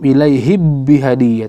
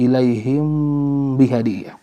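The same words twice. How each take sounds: First: The m is merged fully into the b. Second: The m is softened, halfway between clear and merged. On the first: The speaker calls it wrong. "atau idgham" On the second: The speaker calls it right.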